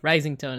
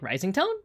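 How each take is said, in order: First: The pitch stays level at the end. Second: The pitch rises at the end. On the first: "instead of like" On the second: "that's what uptalk is when ... it's kind of like rising tone"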